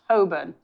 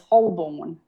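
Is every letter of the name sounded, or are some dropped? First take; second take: some dropped; all sounded. First: Several letters of the name are left unsaid. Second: Every letter of the name is sounded out. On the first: The speaker calls it right. "apparently pronounced Holborn" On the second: The speaker calls it wrong. "phonetically is Holborn"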